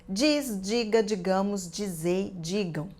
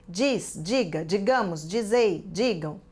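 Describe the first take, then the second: Both takes have the same delivery.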